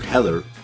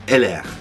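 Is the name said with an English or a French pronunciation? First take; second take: English; French. First: The name is said with an English pronunciation. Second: The name is said with a French pronunciation. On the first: The speaker calls it wrong. "it's not called Heller" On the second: The speaker calls it right. "but Heller, right? ... because it's French"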